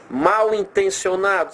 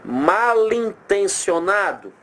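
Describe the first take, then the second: First: "mal intencionado" with mal ending in a w sound, apart from intencionado; MAL kept separate. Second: "Mal intencionado" linked into "ma-lintencionado", very slow and higher; run together as ma-LIN. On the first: Teacher showing the hyphenated word, "mal intencionado" with mal kept apart. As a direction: say "mal intencionado" slowly as two words, raised pitch. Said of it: "Se a gente não puser o hífen".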